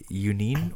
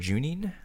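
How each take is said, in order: First: The name begins with a 'y' sound. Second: The name begins with a 'j' sound.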